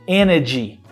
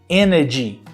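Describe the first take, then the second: The two takes are said the same way.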